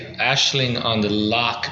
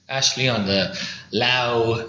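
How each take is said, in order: First: The last word ends in a throaty 'ch'. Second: The last word ends in an 'ow' vowel. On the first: The speaker calls it right. "Ashling on the loch means vision of the lake" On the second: The speaker calls it wrong. "They say"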